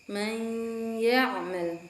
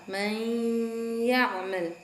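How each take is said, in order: No difference in how they are said.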